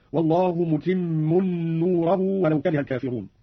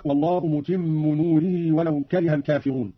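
First: "متم نوره" said "mutimmun noorahu"; slow "متم" with nasal n ending, "نوره" with an a; tanween and nasb. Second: Said in the usual way. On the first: Shown as a demonstration. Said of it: "بتنوين الميم ونصب نوره". (تنوين "متم" ونصب "نوره") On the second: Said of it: "قرأ قالون بتنوين الميم".

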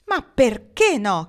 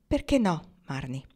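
First: Loud, higher, stretched demand; forceful question. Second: Gentler question. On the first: Pocket challenges Marnie's refusal, forcefully. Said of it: "chiese lui con forza". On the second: Pocket asks Marnie her reason, more gently. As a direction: ask tenderly, easing off. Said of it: "Più gentilmente questa volta Pocket chiese". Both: A narrator's reading.

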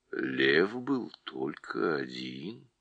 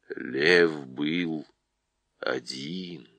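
First: Low and slow, stress on был; calmly insisting, deep voice. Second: Low, slow, stress on Лев; deep calm voice. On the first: Голос Льва. (лев БЫЛ один, низко) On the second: Голос Льва повторяет. (ЛЕВ был один, низко и тихо) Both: Acted.

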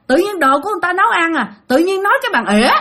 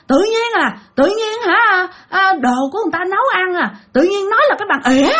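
First: Higher, fast, odd whiny voice; offended possessed father, repeated. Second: Much higher, whiny complaint, faster at the end; offended possessed father. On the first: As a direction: repeat the grudge in a put-on voice. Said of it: "Nói vậy đó". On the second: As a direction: grumble like an offended old spirit. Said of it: "ba mới trả lời vậy nè". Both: Retold or imitated.

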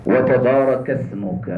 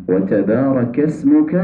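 First: "اسمک" said with a heavy saad instead of seen; slow "وتبارک اسمک" with a thickened ص; mispronounced s. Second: "اسمک" said as ismuka with a light s; slow "و تبارک اسمک" with a thin س; correct light seen. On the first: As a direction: turn the س in "اسمک" into an emphatic s. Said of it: "اس کو سا پڑھ دیا". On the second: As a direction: keep the s in "اسمک" light and clean. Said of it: "یہ اسم سے ہے". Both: Shown as a demonstration.

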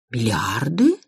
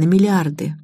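First: Bewildered question. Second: Said in the usual way. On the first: A narrator's reading. Mother repeats daughter's news of a fortune, bewildered. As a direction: echo it in lost disbelief, voice sliding up. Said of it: "растерянно повторила мать".

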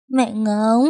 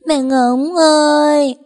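First: Higher, tearful first call; a sobbing child calls out; crying call for mom. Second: Much higher, louder, slow drawn-out wail; wailing for mom. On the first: (bé khóc gọi mẹ, giọng cao nghẹn ngào) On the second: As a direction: cry out long for mommy. (bé gào khóc gọi mẹ, cao, to và kéo dài) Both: A narrator's reading. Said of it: "Khóc đến khàn cổ họng".

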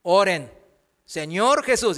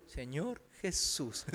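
First: Said in the usual way. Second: Señor Jesús echoed much softer and lower, slow; a reluctant teenager mumbling it back; mock half-hearted mumble; mumbled repeat. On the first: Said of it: "y de". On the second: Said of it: "y ellos".

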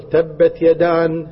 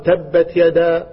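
First: يدان said with a final n, slow; child's wrong repeat. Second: تبت يدا drawn out very slowly, word by word; slow recitation. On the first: Child echoing the teacher, slowly and wrongly. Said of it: "فقال الطفل". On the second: Teacher reciting slowly to a young pupil. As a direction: spell it out slowly for the child. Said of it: "فقال". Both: Retold or imitated.

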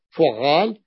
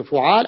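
First: فعال with a held double ع; doubled middle consonant. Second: فعال with a single short ع; light middle consonant. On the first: Teacher naming the other pattern for students, فعال with doubled ع. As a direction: stretch the geminated ع in فعال. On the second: Teacher naming the pattern for students, فعال with undoubled ع. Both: Shown as a demonstration. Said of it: "بالتشديد أو التخفيف".

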